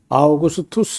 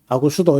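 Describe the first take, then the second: First: The name is said in full, in five syllables. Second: The name is said shortened, in three syllables. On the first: It matches the original name. The speaker calls it right. "아구스도 이렇게 하지 말고 아우구스투스 이렇게 했으면 좋겠고" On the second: It is the older traditional rendering. The speaker calls it wrong. "길게 하기 싫으니까 그냥 아구스도 이렇게 한 거예요"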